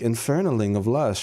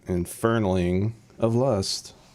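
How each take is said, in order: First: It is said with a proud tone. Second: It is said with an unhappy tone.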